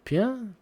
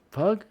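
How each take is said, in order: First: "Pugh?" tried as a questioning "pyoo", pitched up; unsure pronunciation. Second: "Pug?" tried with a hard g, like the dog; unsure pronunciation. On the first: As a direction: test "Pugh?" as a rising question. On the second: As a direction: swap to "Pug?" with a clipped g ending. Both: Real, not acted. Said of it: "I can't fucking say her name".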